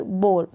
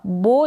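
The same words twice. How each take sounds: First: बोर with the r sounded after o; final r. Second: बो with no r, stopping on o; ending on o. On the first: Teacher offering an alternative reading, r ending बोर. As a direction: close बोर on an r. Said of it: "बो या फिर बोर". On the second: Teacher offering an alternative reading, open o ending बो. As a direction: leave the r off बो. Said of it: "ओ तक ही आप इस sound को एंड". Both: Shown as a demonstration.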